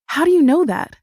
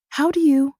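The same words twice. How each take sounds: First: Insistent. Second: Confused, trailing off. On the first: Insistent repeat of cut-off question. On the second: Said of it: "I trail off, confusion crinkling my brow". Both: A narrator's reading.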